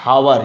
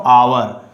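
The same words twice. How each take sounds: First: OUR said as "hour" with the H breathed; wrong sounded H. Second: OUR begun straight on the vowel; silent H. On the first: Teacher shows students the mistake, OUR with a sounded H. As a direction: say OUR as "how-er". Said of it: "not our". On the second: Teacher corrects for students, OUR with silent H. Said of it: "silent H". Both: Shown as a demonstration.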